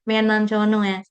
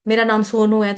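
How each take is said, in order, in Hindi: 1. यह एक छोटी, बच्चों जैसी आवाज़ में बोला गया है। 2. यह एक दृढ़, वयस्क आवाज़ में बोला गया है। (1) "पहले बेबी वाली वॉइस थी" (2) "फिर जब जवान हुआ"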